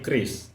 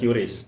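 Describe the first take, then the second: First: The name is said as one word, 'Kris'. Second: The name is said in an English-style way. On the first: The speaker calls it right. "tapi KRIS" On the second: The speaker calls it wrong. "Penyebutannya bukan QRIS"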